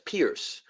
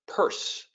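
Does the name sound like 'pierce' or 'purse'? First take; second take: pierce; purse. First: The name is said like 'pierce'. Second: The name is said like 'purse'. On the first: The speaker calls it wrong. "A lot of people is, uh, pronounce it as Pierce" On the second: The speaker calls it right. "It's pronounced Peirce"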